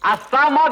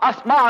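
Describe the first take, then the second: First: A vowel is heard between the s and m. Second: The s runs straight into the m. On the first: The speaker calls it wrong. "కాదు" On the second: The speaker calls it right. "అస్మా అనాలి"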